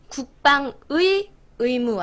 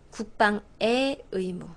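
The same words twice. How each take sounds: First: The particle is pronounced as the full 'ui' sound. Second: The particle is pronounced as a plain 'e' sound. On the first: The speaker calls it wrong. "아니고요" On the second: The speaker calls it right. "소유격 조사 의는 애로 발음을 하시는 거예요"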